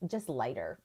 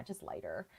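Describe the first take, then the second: First: Said in the usual way. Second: "just lighter" repeated much softer; quiet echo. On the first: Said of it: "not duller, but just, um". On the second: Shown as a demonstration.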